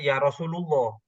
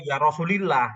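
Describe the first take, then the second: First: The vowel after Rasul is u. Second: The vowel after Rasul is i. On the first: "bukan bukan ya Rasulullah" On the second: "itu malah jauh salahnya"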